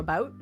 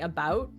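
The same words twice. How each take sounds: First: Said fast, with the vowel closer to ooh. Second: Said slowly, with a clear ow-like vowel. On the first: "if I say it really fast, apparently it turns into about... more of an ooh sound" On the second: "if I'm saying it slowly, I say about"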